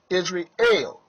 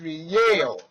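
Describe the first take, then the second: First: The word ends with a plain 'el' sound. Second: The word ends with a 'yel' sound. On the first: The speaker calls it wrong. "I know I mispronounced the, the name many times in saying Israel" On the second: The speaker calls it right. "But it is Israel, Not El, but Yel"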